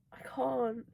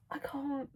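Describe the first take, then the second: First: Breathy excited whisper. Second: Said in the usual way. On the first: Real, not acted. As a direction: whisper it, overwhelmed. Overwhelmed by a romance scene.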